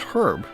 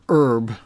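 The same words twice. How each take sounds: First: The word starts with an audible H sound. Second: The word starts with no H sound. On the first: The speaker calls it right. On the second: The speaker calls it wrong.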